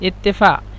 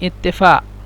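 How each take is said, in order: Both takes have the same delivery.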